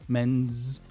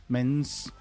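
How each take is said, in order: The two takes are said the same way.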